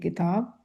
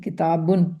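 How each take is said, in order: First: The word stops plainly on its final consonant. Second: The word ends with an added -un sound. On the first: This is how it is said alone in speech. "बोलेंगे आप अगर किसी से अरबी में तो आप कहेंगे किताब" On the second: The full written form with nunation is shown. "तनवीन की किताबुन"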